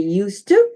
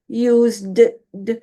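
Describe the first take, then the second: First: The d sound blends smoothly into the following word. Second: The d sound is pronounced separately and clearly. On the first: The speaker calls it right. "You all should just naturally say used to" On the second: The speaker calls it wrong. "I'm going to emphasize it a little bit to separate it from the common use"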